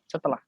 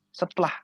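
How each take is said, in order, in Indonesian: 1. Setiap suku kata diucapkan dengan lengkap. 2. Vokal pertama dihilangkan, sehingga menjadi dua suku kata. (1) "tulisannya setelah, S E S E S E T E L A H" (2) "di lagu-lagu itu biasanya setelah, setelah. Jadi tanpa E"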